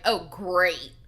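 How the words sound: It sounds sarcastic, with attitude. She is annoyed by the news. "Did she flick him attitude"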